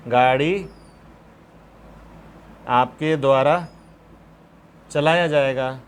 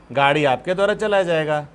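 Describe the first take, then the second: First: "गाड़ी" "आपके द्वारा" "चलाया जाएगा" spoken in separate chunks with long pauses; slow dictation, word by word. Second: Said in the usual way. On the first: Shown as a demonstration. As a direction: dictate it in pieces for copying. (रुक-रुककर लिखवाते हुए) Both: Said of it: "shall will भी तो model ही है".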